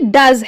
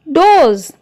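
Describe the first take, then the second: First: The vowel is a short 'uh' sound. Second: The vowel is a long 'oh' sound. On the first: It is the present third person singular verb. "दूसरे वाला D O E S ये डज है" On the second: It means more than one female deer. "पहले वाले को डोज कहेंगे क्योंकि यह प्लूरल है डो का"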